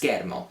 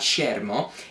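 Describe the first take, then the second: First: The 'ch' is said as a hard k sound. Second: The 'ch' is not said as a k sound. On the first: The speaker calls it right. "C H in Italian makes a K sound, so it's a K" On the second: The speaker calls it wrong. "not schermo"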